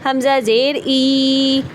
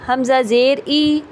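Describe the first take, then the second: First: The final vowel is drawn out long. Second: The final vowel is short and smooth. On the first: The speaker calls it wrong. "ये भी मैंने लंबा कर दिया" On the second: The speaker calls it right. "Normal तरीके से"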